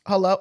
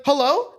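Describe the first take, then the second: First: Said in the usual way. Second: Hello lifted into a question; changed voice. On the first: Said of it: "she was sleeping and I was like". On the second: Retold or imitated. Imitating aunt answering a police prank call, voice changed. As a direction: answer with sudden, mild alertness. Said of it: "Like, her voice changed".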